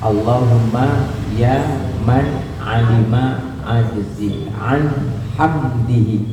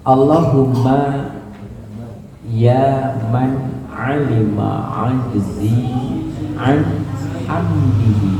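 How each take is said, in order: First: The phrase is read at a fast pace. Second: The phrase is read at a slow pace. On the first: The speaker calls it wrong. "Tadi gigi dua ya?" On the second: The speaker calls it right. "Saya turunin gigi satu"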